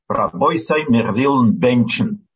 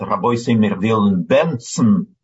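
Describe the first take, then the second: First: The last word has a 'ch' sound in the middle. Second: The last word has a 'ts' sound in the middle. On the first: "мы говорим рабойсай мервилн бенчен" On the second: This is how it is said in the eastern region. "А в Райсон говорят рабойсай мервилн бенцен. Произносят С вместо Ч"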